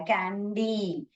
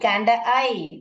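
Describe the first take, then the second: First: The last syllable ends with an 'ee' sound. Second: The last syllable ends with an 'eye' sound. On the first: The speaker calls it right. "तो ये सही आ रहा है" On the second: The speaker calls it wrong. "कैंड आई नहीं"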